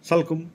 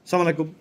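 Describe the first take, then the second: First: The greeting is squeezed into two syllables, 'salkum'. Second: The greeting drops its opening 'as' syllable. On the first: "এগুলা ব্যঙ্গ করা হয়" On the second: "এগুলা ব্যঙ্গ করা হয়"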